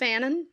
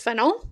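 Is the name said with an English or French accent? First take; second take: English; French. First: The name is said with an English accent. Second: The name is said with a French accent.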